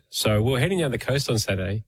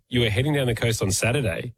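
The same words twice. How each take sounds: First: Said in the usual way. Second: Mock-suspicious echo, doubting what was just said; accusatory. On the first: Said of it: "this person might go". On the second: Shown as a demonstration. Interrupting someone's story to repeat their words, accusatory. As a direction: repeat it back as a mild accusation. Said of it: "in an accusatory tone".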